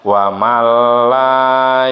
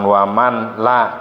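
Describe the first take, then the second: First: The n sound merges into a doubled l. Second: The n sound is kept before the l. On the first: The speaker calls it right. "tapi ya wa mal la" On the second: The speaker calls it wrong. "bukan wa man la"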